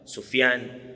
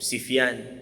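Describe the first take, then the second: First: The first syllable has the vowel u. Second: The first syllable has the vowel i.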